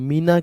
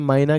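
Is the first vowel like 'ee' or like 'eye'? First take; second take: ee; eye. First: The first vowel sounds like 'ee'. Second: The first vowel sounds like 'eye'. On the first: "मीना कह सकते हैं" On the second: "माइना कह सकते हैं आप उसे"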